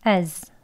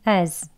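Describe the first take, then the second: The two takes are said the same way.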